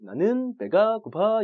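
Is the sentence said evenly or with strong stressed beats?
stressed beats. Some syllables get strong English-like stress. The speaker calls it wrong. "이렇게 안 하잖아요"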